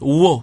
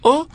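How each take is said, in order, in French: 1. La voyelle commence par un son w avant elle. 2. La voyelle commence nettement, sans son w. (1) "lui prononce « wo »" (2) "au lieu de prononcer « o » comme prononce l'enseignant"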